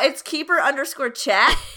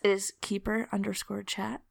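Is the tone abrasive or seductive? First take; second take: abrasive; seductive. First: It is said in a plain, abrasive tone. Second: It is said in a soft, seductive tone.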